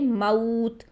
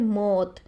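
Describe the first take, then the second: First: The vowel glides softly from a to u. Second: The vowel is a single plain vowel. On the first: The speaker calls it right. "नरमी से मोड़ पैदा करेंगे" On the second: The speaker calls it wrong. "Urdu लैंग्वेज में एक वर्ड बोलते हैं मौत"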